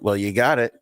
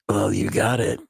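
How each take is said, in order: First: It is said in a plain, ordinary way. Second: It is said in a creepy, sultry way.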